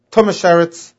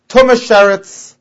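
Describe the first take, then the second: First: Said in the usual way. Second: "Tumas Sheretz" slower, higher and louder; emphasized term. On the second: Shown as a demonstration. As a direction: press the words "Tumas Sheretz" home. Repeats the key term for emphasis.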